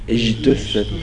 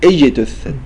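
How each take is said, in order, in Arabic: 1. صوت الجيم هنا مخفف نحو الشين. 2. صوت الجيم هنا جيم واضحة وقوية. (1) "البعض ينطق الجيم شين اجتثت هذا خطأ" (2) "نقول اجتثت"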